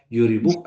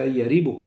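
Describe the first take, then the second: First: The first syllable has the vowel u. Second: The first syllable has the vowel a. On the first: "wa dhammah" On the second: "di fathah huruf ya-nya, ya jadi yaribuk"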